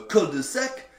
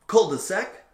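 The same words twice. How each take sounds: First: It is said with a French accent. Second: It is said with an American accent.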